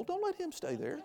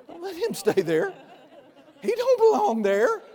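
First: Said in the usual way. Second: Much higher and louder, laughing it out; laughing high exclamation. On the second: Real, not acted. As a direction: laugh as you tell them to throw the devil out. Repeated warning, laughing high.

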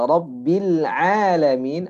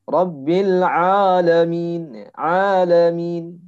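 First: Rabbil Alamin drawn out slowly with a thick ain; heavy alamin. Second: Rabbil Alamin, alamin very slow and louder, ain thick; wrong thick ain demo; heavy alamin. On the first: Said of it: "maka bunyinya alamin". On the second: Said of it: "Jadi ainnya terlalu tebal". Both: Shown as a demonstration.

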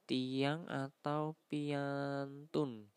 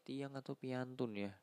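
First: Tiang atau piantun, slow and clear; slow kromo words. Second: Said in the usual way. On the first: Shown as a demonstration. (ucapkan pelan dan jelas)

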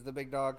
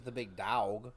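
First: Said in the usual way. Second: "Dog" said as "dowg"; altered "Dog". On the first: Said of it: "'cause that's taken". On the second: Shown as a demonstration. Wrestler pitches a knockoff nickname, "Dog" said as "dowg". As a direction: stretch the vowel of "Dog" into an "ow". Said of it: "No, it's different".

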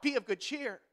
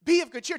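First: Said in the usual way. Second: "Be of good cheer" pushed up high and loud; rally them, raising the voice; louder urging. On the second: Shown as a demonstration. Pastor urging the congregation, raised and loud.

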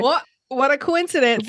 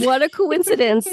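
First: Lightly awkward, stiff line; awkward Stevie. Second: Awkward, a touch higher; awkward Stevie. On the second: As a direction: play it stiff and awkward. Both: Retold or imitated. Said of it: "hundred percent awkward".

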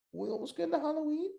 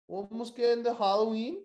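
First: "Halloween" said high and quick; high, fast squeaky take. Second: Said in the usual way. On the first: Shown as a demonstration. Repeating to co-host in a squeaky high voice. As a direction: squeak the line up high in a rush. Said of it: "second take, higher and faster". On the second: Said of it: "repeat with different take".

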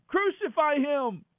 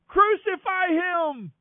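First: High, drawn-out shout at normal volume; crowd shout. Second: Very high, long, sustained yell; louder crowd roar. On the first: Crowd answers Pilate's question, a high drawn-out shout. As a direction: call it out high and slow as a crowd. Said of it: "And they all shouted". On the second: Crowd insists over Pilate's objection, roaring. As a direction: roar it out, stretching every syllable high. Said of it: "the crowd only roared the louder". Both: A narrator's reading.

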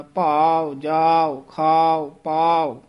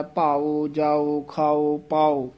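First: ਭਾਓ, ਜਾਓ, ਖਾਓ, ਪਾਓ with long a closing into u; closed-mouth ending. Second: ਭਾਓ, ਜਾਓ, ਖਾਓ, ਪਾਓ with full o endings; open-mouthed ending. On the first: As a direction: lengthen the a, close ਭਾਓ on a short u. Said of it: "ਬੰਦ ਮੂੰਹ ਵਾਲੇ ਊੜੇ". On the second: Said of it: "ਊੜਾ ਖੁੱਲੇ ਮੂੰਹ ਵਾਲਾ". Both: Shown as a demonstration.

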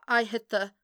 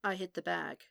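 First: Louder, broken-off attempt to remember; halting recollection. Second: Toneless, softer, horrified realisation; inflection gone. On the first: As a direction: start to recall it, then break off. Matt struggles to remember aloud. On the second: A narrator's reading. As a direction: let all inflection drain from the voice. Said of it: "The inflection left his voice".

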